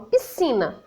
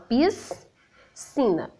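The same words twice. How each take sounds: First: The s and c merge into one s sound. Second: The s and c are sounded separately. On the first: The speaker calls it right. "eu falo piscina, né? Tem o som de S" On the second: The speaker calls it wrong. "eu não falo essas consoantes separadas. Eu não falo piscina"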